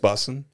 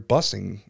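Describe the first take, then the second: First: The word ends without a g sound. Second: The word ends with a g sound. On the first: This is how young people say it. "they all say" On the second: It is said to annoy the young people. "So all I do is just add the G at the end"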